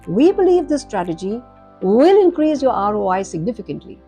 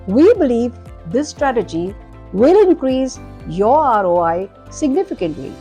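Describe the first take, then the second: First: One short pause follows the word strategy. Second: Pauses break the sentence in many places. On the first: The words are grouped into clear units of meaning. The speaker calls it right. "group words together ... we believe this strategy, micropause" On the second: The listener loses track of the message. The speaker calls it wrong. "I have overpaused"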